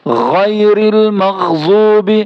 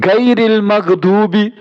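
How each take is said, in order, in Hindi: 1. पहला शब्द थ्रोटी gh ध्वनि से शुरू होता है। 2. पहला शब्द हार्ड g ध्वनि से शुरू होता है।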